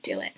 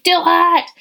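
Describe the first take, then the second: First: Low, soft whispered nudge; hushed encouraging whisper. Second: High, loud pushy yell; shouted command, hammed up; mock shout. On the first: Shown as a demonstration. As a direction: breathe it as a gentle secret push. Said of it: "But kinda like". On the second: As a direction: bark it like a pushy coach. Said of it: "I'm not gonna be here to be like".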